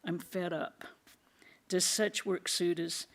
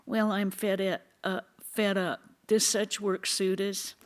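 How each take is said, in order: First: Distressed. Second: Higher, louder mocking whine of a quitter; teasing imitation of a disciple fed up with work; mocking nasal whine. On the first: Acted. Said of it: "said in a distressed voice". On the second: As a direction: mimic the complainer with a sneer. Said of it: "They say in a nasal voice".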